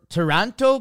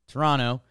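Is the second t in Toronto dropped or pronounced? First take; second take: pronounced; dropped. First: The second t sound is clearly pronounced. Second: The second t sound is dropped. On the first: The speaker calls it wrong. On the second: The speaker calls it right.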